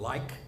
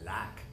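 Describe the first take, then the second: First: The vowel is a standard, full diphthong. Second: The vowel is flat, in an Oklahoma accent. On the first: The speaker calls it right. "the word like" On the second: The speaker calls it wrong. "and I would say like"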